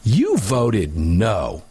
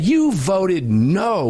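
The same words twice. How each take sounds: First: Slow, stressed NO on "You voted no."; mock reporter leaning on no; mimicking reporter's emphasis. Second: "You voted no" slow, leaning hard on no; slow mock quote, stress on no; emphasis on no. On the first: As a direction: drag out "You voted no" with weight on no. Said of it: "the inflection in the reporter's voice". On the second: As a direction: drag out "You voted no" and punch no. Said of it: "with an emphasis on the word no".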